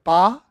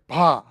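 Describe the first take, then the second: First: The consonant is plainly voiced, without breathiness. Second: The consonant has a breathy, rushing voice. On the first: "instead of ba" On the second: "you hear a little breathiness there"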